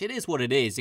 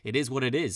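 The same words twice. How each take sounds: First: The phrase is said in a light, breezy tone. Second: The phrase is said in a heavy, somber tone. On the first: "in kind of a lighthearted way" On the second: "the words are the same, but the meaning's a bit different"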